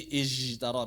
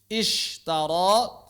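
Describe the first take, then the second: First: The middle consonant sounds like a 'j'. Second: The middle consonant is a clear hissing 'sh'. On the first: The speaker calls it wrong. "malah jadi ijtara" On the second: The speaker calls it right. "harus jelas, jangan bercampur"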